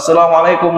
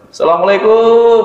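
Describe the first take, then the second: First: The final syllable is kept short. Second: The final syllable is stretched out long. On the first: The speaker calls it right. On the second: The speaker calls it wrong. "Suka ditambahin mat orang Indonesia"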